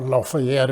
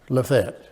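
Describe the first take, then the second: First: The name is pronounced the precise standard way. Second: The name is pronounced the casual local way.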